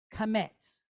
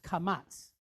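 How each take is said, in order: First: Kamets, second vowel as short E; usual kamets pronunciation. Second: Kamats, second vowel as open "ah"; alternate pronunciation. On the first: Teacher naming the vowel mark, kamets with an "eh". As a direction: say kamets with "eh" in the last syllable. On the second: Teacher showing the other pronunciation, kamats with an "ah". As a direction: say kamats with "ah" in the last syllable. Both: Shown as a demonstration. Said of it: "Sometimes you hear it pronounced kamats".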